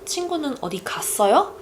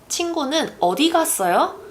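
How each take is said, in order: First: The stress falls on the word 갔어요. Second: The stress falls on the word 어디. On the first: It asks whether the friend went somewhere. "If I place the emphasis on the 갔어요" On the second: It asks where the friend went. "So I'm placing the emphasis on 어디"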